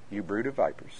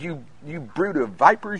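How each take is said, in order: First: It is said calmly, with little emotion. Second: It is said forcefully, with strong emotion. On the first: The rebuke is softened and mild. The speaker calls it wrong. "How many of you think he said it like this?" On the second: The rebuke is meant in earnest. The speaker calls it right. "just because there's emotion involved does not mean it's not love"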